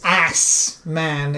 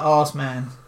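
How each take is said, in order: First: The words are said without a British accent. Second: The words are said in a British accent. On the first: "Is that better?" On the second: "I'm British. Beautiful British pronunciation"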